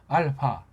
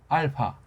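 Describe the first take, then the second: Both takes have the same delivery.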